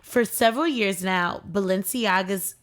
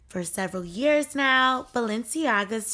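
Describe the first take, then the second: First: It is read in the speaker's own natural voice. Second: It is read in a put-on imitated celebrity voice.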